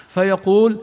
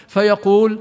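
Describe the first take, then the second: The two takes are said the same way.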